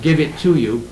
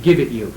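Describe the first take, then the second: First: "give it to you" with TO leaned on; stress on TO. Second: Said in the usual way. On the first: Shown as a demonstration. Lecturer shows the expected wording, stressing "to". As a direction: point up the word "to". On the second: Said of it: "So this word's dropped out".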